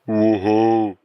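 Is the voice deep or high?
deep. It is said in a deep voice.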